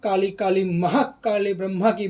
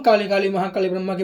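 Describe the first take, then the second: First: It is said slowly, with weight on each word. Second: It is said quickly, with words run together. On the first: The speaker calls it right. "शब्द पे जोर डाल रहा है" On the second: The speaker calls it wrong. "फटाफट बोल रहा है"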